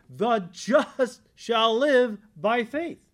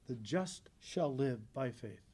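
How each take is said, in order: First: It is said loudly. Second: It is said fairly softly.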